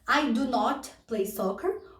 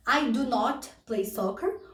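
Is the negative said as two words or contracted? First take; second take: two words; two words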